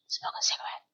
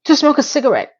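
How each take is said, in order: First: Unvoiced whisper. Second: Said in the usual way. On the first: Vlogger mocks the excuse in a whisper. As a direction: breathe it out, no voice.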